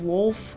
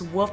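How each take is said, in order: First: The name is said with an L sound. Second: The name is said without an L sound. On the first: The speaker calls it right. "instead of Wolf" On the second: The speaker calls it wrong. "I pronounce Woof as Woof"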